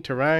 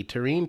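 First: "terrine" as tuh-RINE, rising in question; unsure "terrine" rhyming with "fine"; alternative pronunciation. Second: "terrine" as tuh-REEN; "terrine" rhyming with "bean"; first pronunciation. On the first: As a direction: say "terrine" with a long i, like "line". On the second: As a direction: say "terrine" with a long ee, like "seen". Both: Shown as a demonstration. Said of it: "You were right the first time".

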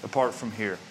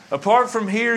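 First: "Apart from here" dropped lower and softer, falling away; quiet echo. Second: "Apart from here" thrown out higher and louder, rising at the end; emphatic call. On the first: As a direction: let "Apart" sink into a hush. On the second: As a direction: punch "Apart" as a warning. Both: Acted. Preacher repeats phrase for contrast.

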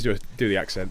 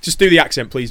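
First: Said in the usual way. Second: Louder, higher pleading request; high, loud coaxing plea; eager plea. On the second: Real, not acted. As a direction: push him to do the accent. Host begs co-host for accent.

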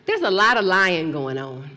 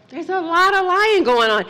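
First: Said in the usual way. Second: Preaching emphasis. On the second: Acted. Preacher's repeat.

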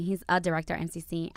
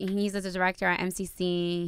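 First: Quicker repeat with weight on "a"; stress on A. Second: Said in the usual way. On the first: Real, not acted. Fiancee correcting herself about his job, stress on "a". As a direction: lean on the word "a" before "director".

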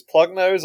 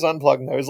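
First: Nose pinched shut while speaking; pinching nose. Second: Said in the usual way. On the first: Shown as a demonstration. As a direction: talk through a pinched nose.

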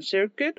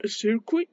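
First: "Circuit" said roughly SER-keh; tentative pronunciation. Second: "Circuit" said SEER-kee, pitched up; second pronunciation attempt. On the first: YouTuber attempting an English book title, "Circuit" as SER-keh. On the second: YouTuber retrying an English book title, "Circuit" as higher SEER-kee. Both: Real, not acted.

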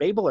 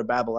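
First: "Babel" said BAY-bul, long A. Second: "Babel" said like "babble", short A. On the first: Podcast guest unsure of the tower's name, "Babel" as BAY-bul. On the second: Podcast guest offering the other option, "Babel" as BAB-ul. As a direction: say "Babel" with the vowel of "cat". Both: Shown as a demonstration. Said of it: "is it Babel or Babel?".

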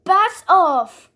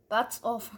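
First: Loud. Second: Said in the usual way. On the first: Retold or imitated. Repeating the voice line twice.

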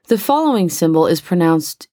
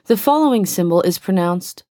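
No difference in how they are said.

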